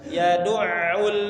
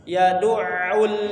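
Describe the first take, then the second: No difference in how they are said.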